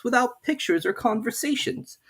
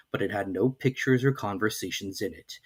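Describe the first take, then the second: First: Put-on higher, questioning girl's voice; Alice puzzling to herself, pitched up; young Alice wondering. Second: Said in the usual way. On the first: A narrator's reading. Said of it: "thought Alice".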